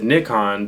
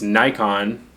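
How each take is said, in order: First: Nikon is said the Japanese way. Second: Nikon is said the American way. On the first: This is how the name is said in Japan and the UK. "in Japan, and all the people that I know who are Japanese or from the U K, all pronounce it Nikon" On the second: This is how the name is said in the United States. "in English-speaking countries in the West, like the United States, Nikon is what people like to call these cameras"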